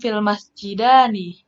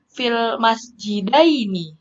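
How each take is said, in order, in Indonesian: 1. Kata ini berakhir dengan bunyi 'ani'. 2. Kata ini berakhir dengan bunyi 'aini'. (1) "bacanya bukan fil masjidani" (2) "tapi fil masjidaini"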